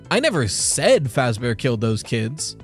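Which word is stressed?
said. The stress is on the word said.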